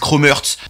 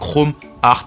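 First: Hearts is said like the word hurts. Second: Hearts is said the French way, like art. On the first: "il y en a qui disent Chrome Hearts. Hearts, c'est genre blessé" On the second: "en français, pour moi, Chrome Hearts. C'est vrai que ça ressemble du coup au mot art"

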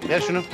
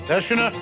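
The two takes are said the same way.

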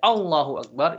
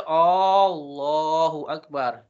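First: The opening vowel is short, not drawn out. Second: The opening vowel is long and drawn out. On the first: It states that God is the greatest. The speaker calls it right. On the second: It asks whether God is the greatest. The speaker calls it wrong.

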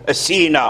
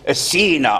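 The two takes are said the same way.

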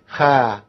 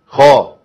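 First: The kh sound is thin and light. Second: The kh sound is full and heavy. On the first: The speaker calls it wrong. "لكن ما اقولش خا" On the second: The speaker calls it right. "فخموا قوي"

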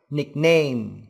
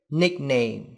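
First: The stress is on the second syllable. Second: The stress is on the first syllable. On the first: The speaker calls it wrong. "chứ không phải là âm tiết thứ hai" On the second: The speaker calls it right. "trọng âm rơi vào âm tiết đầu tiên"

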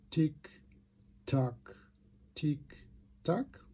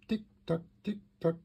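First: The ticks are spoken at a slow pace. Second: The ticks are spoken at a fast pace. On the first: The pendulum is set lower, so the clock runs slower. "wird die Uhr langsamer. Die Frequenz wird niedriger" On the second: The pendulum is set higher, so the clock runs faster. "Weiter oben"

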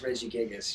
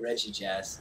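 First: The name is said with four syllables. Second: The name is said with three syllables. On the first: The speaker calls it right. "No, it's Regigigas" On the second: The speaker calls it wrong. "I never pronounce it right. I always say Regigas"

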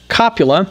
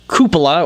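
First: The word begins with 'kop', then 'yuh-luh'. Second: The word begins with 'kyoo', then 'puh-luh'. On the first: The speaker calls it wrong. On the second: The speaker calls it right.

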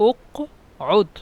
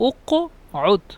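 No difference in how they are said.

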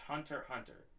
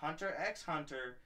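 First: The X is left out between the words. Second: The X is spoken aloud between the words. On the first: The speaker calls it right. "The X is silent" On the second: The speaker calls it wrong. "It's not Hunter X Hunter"

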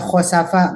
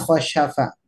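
First: The middle consonant is a plain 's' sound. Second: The middle consonant is an 'sh' sound. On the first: The speaker calls it right. "sin ya" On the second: The speaker calls it wrong. "bukan shin ya"

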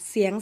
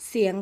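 Both takes have the same delivery.

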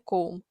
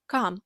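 First: The vowel sounds like the vowel in 'go'. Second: The vowel sounds like the vowel in 'luck'. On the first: The speaker calls it wrong. "а не come" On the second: The speaker calls it right. "вимовляється як come"

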